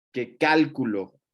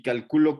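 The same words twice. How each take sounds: First: "cálculo" stressed on the first syllable, CÁL-cu-lo, slowly; cálculo, noun stress. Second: "calculo" stressed on the second syllable, ca-CU-lo; calcúlo, verb stress. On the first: Teacher contrasting words, says "cálculo" slowly as CÁL-cu-lo. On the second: Teacher contrasting words, says "calculo" as the verb ca-CU-lo. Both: Shown as a demonstration. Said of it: "No es lo mismo".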